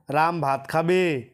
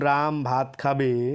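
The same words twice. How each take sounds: First: It is said with question intonation. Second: It is said as a plain statement.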